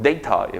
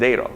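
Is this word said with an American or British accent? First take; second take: British; American. First: It is said with a British accent. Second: It is said with an American accent. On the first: "영국식 발음으로" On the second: "미국식 발음은"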